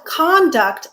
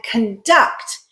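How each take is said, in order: First: "conduct" as CON-duct; stress on first syllable. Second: "conduct" as con-DUCT; stress on second syllable. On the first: Teacher recalls the noun, "conduct" stressed on CON. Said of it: "when we stress the first syllable". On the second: Teacher recalls the verb, "conduct" stressed on DUCT. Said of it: "When we stress the second syllable". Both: Shown as a demonstration.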